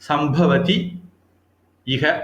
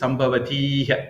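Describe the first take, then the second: First: The words are said separately, vowels kept apart. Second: The words are joined, the vowels merging into one.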